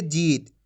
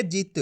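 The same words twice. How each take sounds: First: Teacher showing the reading to avoid, "जीत" with a long stretched ee; drawn-out vowel. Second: Teacher showing students the right reading, "जित" with a short i; teacher says "जित" with the i kept brief, not drawn out; short vowel. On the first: Teacher warning students against stretching, long-vowel "जीत". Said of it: "ऐसे नहीं पढ़ेंगे खींच के". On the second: Teacher answering how to read it, short-vowel "जित". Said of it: "कम खींच के पढ़ेंगे". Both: Shown as a demonstration.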